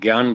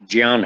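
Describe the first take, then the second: First: The word is said the common Hindi way. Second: The word is said the Sanskrit way. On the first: "आप लोग हिंदी सामान्य भाषा में ज्ञान बोलते हैं" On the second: "संस्कृत में उसका उच्चारण ज्ञान है"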